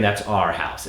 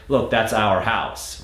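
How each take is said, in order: First: Our said as a short R, ar. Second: Our said with two syllables, ow-er; full our. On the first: Coach modeling the target our as R. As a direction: our shrinks to a single R. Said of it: "practice really saying". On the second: Coach showing the sliding American our. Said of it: "sometimes they might say". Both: Shown as a demonstration.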